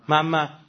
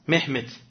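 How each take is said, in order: First: The name is said with a Persian pronunciation. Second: The name is said with a Turkish pronunciation. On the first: "ما میگیم چی؟"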